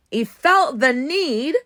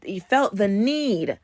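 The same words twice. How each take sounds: First: "he felt the need" pushed higher, louder and slower; "he felt the need" drawn out with raised pitch; incredulous emphatic repeat. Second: Said in the usual way. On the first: Real, not acted. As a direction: hammer home "felt the need" in disbelief, stretching it.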